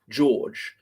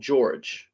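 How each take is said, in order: First: The middle sounds like a W, with no R. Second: An R sound is heard in the middle. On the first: "sounds like it's spelt with a W in the middle" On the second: "which might be a, an American pronunciation"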